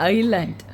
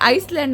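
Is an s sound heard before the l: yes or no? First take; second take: no; yes. First: No s sound is said before the l. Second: An s sound is said before the l. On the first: The speaker calls it right. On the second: The speaker calls it wrong. "ಐಸ್ಲ್ಯಾಂಡ್ ಅಲ್ಲ"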